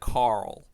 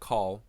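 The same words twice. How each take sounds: First: The name is said in an American accent. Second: The name is said in an English accent. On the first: The speaker calls it right. "If you're American, it's nice and easy... the right way to say Carl is like that" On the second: The speaker calls it wrong. "if I just say it normally like Carl, it's like it sounds too much like ... Kyle"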